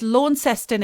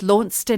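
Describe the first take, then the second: First: The name is said the Australian way. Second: The name is said the English way. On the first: This is the town in Australia. "it's Launceston in Australia" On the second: This is the town in England. "and it's Launceston here in England"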